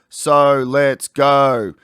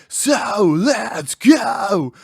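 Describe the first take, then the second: First: The words are said plainly, without exaggeration. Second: The syllables are drawn out and heavily exaggerated. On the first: It does not sound exciting. The speaker calls it wrong. "if I just go" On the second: It sounds exciting. The speaker calls it right. "over exaggerate your pronunciation ... wind into them"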